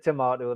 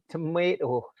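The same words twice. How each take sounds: First: Tomato is said with a British accent. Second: Tomato is said with an American accent.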